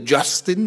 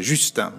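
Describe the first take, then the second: First: The name is pronounced with English sounds. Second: The name is pronounced with French sounds. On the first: The speaker calls it wrong. "non si dice Justin" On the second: The speaker calls it right. "ma si dice Justin"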